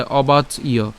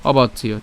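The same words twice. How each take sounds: First: "অবাচ ইয়" broken after অবাচ; split pronunciation. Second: "অবাচ ইয়" run together as one word; joined pronunciation. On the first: Teacher splitting the word at the jophola, "অবাচ ইয়" in two parts. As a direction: say অবাচ, brief break, then ইয়. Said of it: "অবাচ পর্যন্ত উচ্চারণ করার পরে". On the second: Teacher joining the parts for learners, "অবাচ ইয়" said as one word. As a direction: say অবাচ ইয় without any break. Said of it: "আমরা একসাথে উচ্চারণ করব". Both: Shown as a demonstration.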